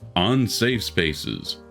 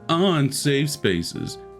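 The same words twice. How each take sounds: First: It is said in a plain, normal voice. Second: It is said in a mocking put-on voice.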